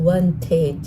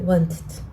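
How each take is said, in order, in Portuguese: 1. O final tem um som de vogal completo e claro. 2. A vogal final é cortada e quase silenciosa. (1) "A pronúncia correta não é assim" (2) "a gente vai cortar aquele i, como se ele não tivesse realmente som na palavra"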